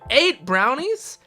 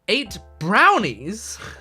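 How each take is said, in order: First: The stress falls on the word eight. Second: The stress falls on the word brownies. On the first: The number of brownies is surprisingly large. The speaker calls it wrong. "they emphasize the wrong thing" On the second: The line fits the context of the scene. The speaker calls it right. "in fact it's supposed to be eight brownies"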